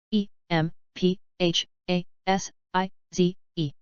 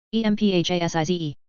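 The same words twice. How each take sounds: First: Slow, letter by letter; unhurried classroom spelling. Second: Quick letter run; brisk recap spelling; fast spelling. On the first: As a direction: spell each letter out slowly. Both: Shown as a demonstration. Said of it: "spelling drill, slow then fast".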